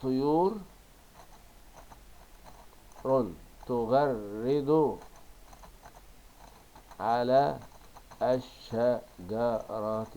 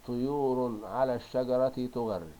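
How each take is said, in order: First: Very slow, loud, chopped "طيور تغرد على الشجرة"; stretched, separated dictation of "طيور تغرد على الشجرة"; dictating syllable by syllable. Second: Loud, connected "طيور على الشجرة تغرد"; model sentence reading. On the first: Reordered words dictated while writing. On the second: Teacher reads sentence, then dictates it. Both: Shown as a demonstration.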